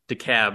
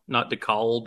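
First: The last syllable sounds like 'cab'. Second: The last syllable does not sound like 'cab'. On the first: The speaker calls it right. "It's DeKalb, like why call a cab when you can call DeKalb?" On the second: The speaker calls it wrong. "not DeKalb or DeKalb or any other pronunciation"

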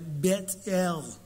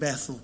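First: The name is said in a posh way. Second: The name is said in a plain way.

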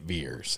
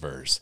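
First: The vowel sounds like the vowel in 'ear'. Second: The vowel sounds like the vowel in 'her'. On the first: "so I would know to say it Veers" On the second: "instead of Verse"

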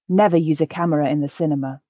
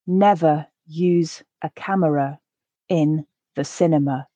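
First: The sentence is said at a natural pace. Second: The sentence is said slowly and carefully. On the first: "once at a more natural pace" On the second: "I'll read each sentence once, quite slowly"

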